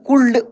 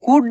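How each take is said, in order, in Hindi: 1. L ध्वनि बोली जाती है। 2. L ध्वनि मौन रहती है। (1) "शुल्ड कुल्ड उल्ड नहीं पढ़ेंगे" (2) "एल साइलेंट है यहाँ पे"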